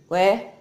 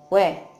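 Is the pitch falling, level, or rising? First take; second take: rising; falling. First: The pitch rises through the word. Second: The pitch falls quickly in a short word.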